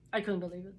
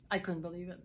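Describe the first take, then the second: No difference in how they are said.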